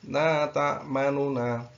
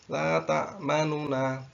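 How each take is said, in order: First: A faint short u is heard between the n sounds. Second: A faint short u is heard between the n sounds.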